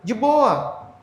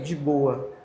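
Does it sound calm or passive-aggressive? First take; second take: passive-aggressive; calm. First: It sounds passive-aggressive and irritated. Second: It sounds calm and relaxed.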